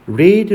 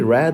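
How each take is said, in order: First: The vowel is long, like 'reed'. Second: The vowel is short, like 'red'. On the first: It is the present tense form. "현재인지" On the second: It is the past tense form. "과거인지"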